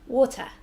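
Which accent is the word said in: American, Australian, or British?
British. A clear t sound, and no final r. "in the U K, they say the T sound, but they don't say the er sound"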